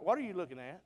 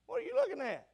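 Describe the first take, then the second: First: Said in the usual way. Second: High, put-on voice of a puzzled listener; mimicking a congregant. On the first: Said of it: "Brother Billy, what are you looking at?". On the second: Preacher imitating a churchgoer questioning him, in a high mock voice. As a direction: play the curious churchgoer teasingly. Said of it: "You said, "Brother Billy".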